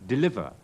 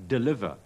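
Both takes have the same delivery.

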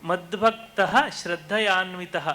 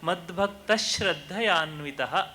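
First: The visarga is sounded as a separate h. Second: The consonant after the visarga is pressed, doubled. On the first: The speaker calls it wrong. "ಇದ್ದದನ್ನು" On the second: The speaker calls it right. "ಒಟ್ಟಿಗೆ ಓದುವಾಗ ... ವಿಸರ್ಗದ ಮುಂದಿನ ಅಕ್ಷರವನ್ನು ... ಒತ್ತಿ ಹೇಳಬೇಕು"

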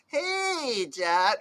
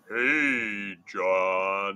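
First: It is said in a high, squeaky voice. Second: It is said in a deep, low voice.

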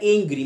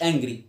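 First: The first vowel is a long 'ay' sound. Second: The first vowel is a short 'a' sound. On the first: The speaker calls it right. "اسمها انجري" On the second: The speaker calls it wrong. "مش انجري"

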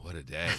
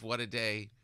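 First: The phrase sounds weary and worn out. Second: The phrase sounds upbeat and hopeful. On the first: The day has been exhausting. "by like, you know, 6 o'clock when we're rolling around to dinner, it's, oh" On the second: The day is off to a good start. "pretty optimistic in the morning"

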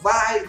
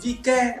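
First: The name is said as one syllable, vai. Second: The name is said with a final k sound. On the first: The speaker calls it right. "anh em bảo là phải đọc là vai" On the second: The speaker calls it wrong. "mình cứ đọc là con Vike"

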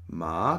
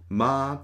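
First: The syllable sounds like a question. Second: The syllable is held long on one pitch. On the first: "das etwas fragend klingt" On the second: "den sehr langen Ton"

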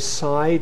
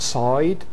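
First: The vowel is the standard 'ai' sound. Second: The vowel is shifted toward an 'oi' sound. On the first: This is the mainstream standard pronunciation. "I say side" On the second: This is the southern or London-area pronunciation. "and not side"

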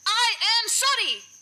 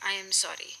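First: It is said in an angry tone. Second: It is said in a calm tone.

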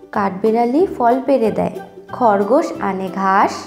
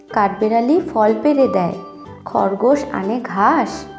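No difference in how they are said.

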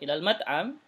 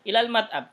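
First: The voice rises at the end like a question. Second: The voice falls at the end like an answer. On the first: The speaker calls it wrong. "Bukan ilal mat'am" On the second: The speaker calls it right. "Tidak, ilal mat'am, ke restoran gitu ya"

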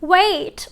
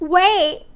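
First: The final t is fully released. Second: The final t is a glottal stop. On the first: "อย่างเช่น" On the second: "ถ้าเมื่อไหร่ที่เราออกเสียงแบบ glottal t เนี่ยมันจะกลายเป็น"

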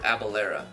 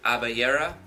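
First: The middle consonant sounds like an L. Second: The middle consonant sounds like a Y.

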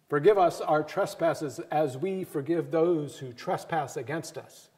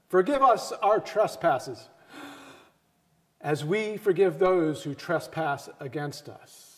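First: The two phrases run together without a pause. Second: There is a breath pause between the two phrases. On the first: Our own forgiveness depends on forgiving others. "if we remove that comma and we remove that breath" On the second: The two requests are almost unrelated things. "We normally take a big breath"

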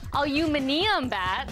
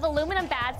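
First: It is said the British way, alu-MIN-ium. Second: It is said the American way, alu-MIN-um.

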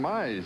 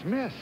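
First: The vowel rhymes with 'size'. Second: The vowel rhymes with 'kiss'. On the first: The speaker calls it wrong. "everybody's been calling me Mize" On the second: The speaker calls it right. "but it's Miss"

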